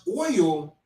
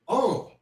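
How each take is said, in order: First: The word has a full 'oy' vowel. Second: The word sounds like 'oh' with no glide.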